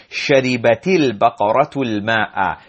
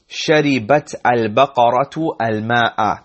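First: "شربت البقرة الماء" linked as sharibati-l-baqaratu-l-ma'a; words joined. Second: "شربت البقرة الماء" word by word, sharibat al-baqaratu al-ma'a; words unjoined. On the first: Teacher models the joining, "شربت البقرة الماء" linked. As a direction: run "شربت البقرة الماء" together, dropping each initial a of "al-". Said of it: "joining there". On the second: Teacher first reads the Arabic sentence, "شربت البقرة الماء" unjoined. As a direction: say "شربت البقرة الماء" with each "al-" started afresh. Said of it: "Technically, we would pronounce it as".

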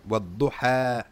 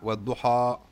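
First: Wad-Duha with a thin, light final alif. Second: Wad-Duha with a dark, heavy final a; wrongly heavy alif. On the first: Teacher models the recitation for students, light alif. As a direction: say Wad-Duha with the last a fronted, not darkened. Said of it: "Alif muraqqaqa". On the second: Teacher shows students what to avoid, heavy alif. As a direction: back the last vowel of Wad-Duha toward "aw". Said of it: "not Wad-Duha". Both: Shown as a demonstration.

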